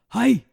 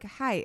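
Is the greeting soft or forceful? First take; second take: forceful; soft. First: It is said forcefully, like a karate shout. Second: It is said softly and weakly.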